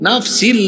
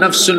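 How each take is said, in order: First: The word ends with an -in sound. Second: The word ends with an -un sound. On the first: "এটাকে পড়ছে" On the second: "পড়ছে"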